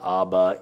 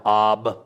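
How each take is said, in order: First: ABBA with an added final ah; two syllables, abba ending in a vowel; wrong abba. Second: AB ending on the b; Arabic ab. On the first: Showing the rejected form, abba with final vowel. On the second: Giving the Arabic form, clipped-off ab. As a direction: stop ab at the b, no final vowel. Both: Shown as a demonstration. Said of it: "not abba".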